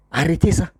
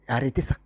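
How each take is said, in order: First: Sharper, more forceful repeat; firm insistent repeat; firmer command. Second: Said in the usual way. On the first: Acted. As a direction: put weight on Arrêtez. Repeated command to stop blaming.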